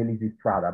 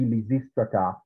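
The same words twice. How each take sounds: First: The stress falls on the third syllable, stra. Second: The stress falls on the second syllable, sis. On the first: "but people say Lysistrata" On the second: "the accent is going to be recessive. So it should be Lysistrata"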